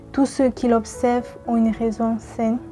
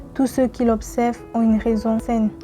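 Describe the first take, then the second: No difference in how they are said.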